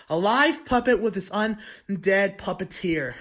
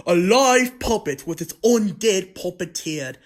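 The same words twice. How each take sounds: First: Said in the usual way. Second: Loud, slow, hammed-up vampire accent; vampire-accented puppeteer. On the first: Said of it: "I'm gonna stop speaking that". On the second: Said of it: "like a vampire sounding accent".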